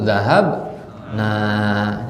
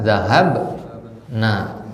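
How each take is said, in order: First: The final vowel is said long. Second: The final vowel is said short. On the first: We went. "kalau baca panjang itu nahnu" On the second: A group of women went. "kalau baca pendek itu hunna"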